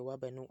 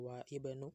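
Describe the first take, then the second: First: The words run together with no glottal stop. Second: A glottal stop separates 'wa' and 'ibnu'. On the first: The speaker calls it right. "diwasolnya disambung jadi wa banu" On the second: The speaker calls it wrong. "jadi enggak wa ibnu"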